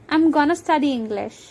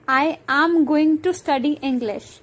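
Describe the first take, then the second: First: Going to is reduced to gonna. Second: Going to is said in full.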